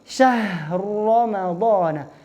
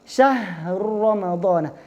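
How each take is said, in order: Both takes have the same delivery.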